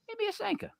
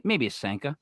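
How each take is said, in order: First: High, soft mock mom voice. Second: Said in the usual way. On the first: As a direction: mimic mom in a high, hushed voice. Mom's suggestion, retold and then mocked.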